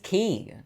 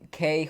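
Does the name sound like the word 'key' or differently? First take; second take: key; differently. First: The name sounds exactly like 'key'. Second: The name does not sound like 'key'. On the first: The speaker calls it right. "his name's Key" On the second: The speaker calls it wrong. "he pronounced Ke Ke Huy Quan"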